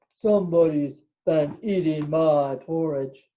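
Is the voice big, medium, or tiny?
big. It is said in a big, deep voice.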